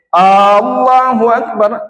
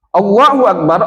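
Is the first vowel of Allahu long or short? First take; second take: long; short. First: The first vowel of Allahu is drawn out long. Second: The first vowel of Allahu is short. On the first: It asks whether God is the greatest. The speaker calls it wrong. "Kalau a ditambah rupanya terjadi perbedaan. Jadi a itu menjadi istifham" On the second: It states that God is the greatest. The speaker calls it right. "Allah maha besar"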